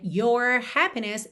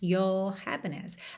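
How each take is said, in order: First: The R after 'your' is pronounced, American style. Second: The R after 'your' is dropped, British style.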